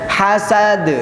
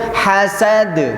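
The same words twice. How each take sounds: The two takes are said the same way.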